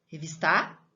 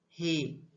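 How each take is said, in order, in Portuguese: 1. A tônica cai na última sílaba. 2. A tônica cai na segunda sílaba. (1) "Eu falo revistar?" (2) "qual que é a sílaba? Vis"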